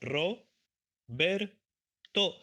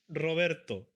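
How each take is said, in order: First: The name is split into separate parts. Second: The name is said smoothly as one word.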